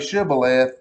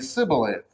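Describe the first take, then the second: First: The word begins with a sh sound. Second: The word begins with an s sound.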